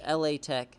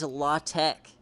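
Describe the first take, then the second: First: LA is said as two separate letters. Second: LA is said as one syllable, like la. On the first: The speaker calls it right. "It's L A Tech" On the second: The speaker calls it wrong. "no one ever says La Tech. That's disgusting"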